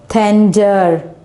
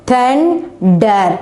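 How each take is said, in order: First: Said in the usual way. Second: "Thunder" in two separated beats; split into syllables. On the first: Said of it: "we can easily pronounce the word". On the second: Shown as a demonstration. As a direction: pause before the last syllable of "Thunder". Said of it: "divide the word into two".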